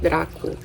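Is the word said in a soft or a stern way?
soft. It is said softly, Portuguese style. This is how it is said in Romance languages. "in romantic languages like in Portuguese... it's softer, it's like Draco"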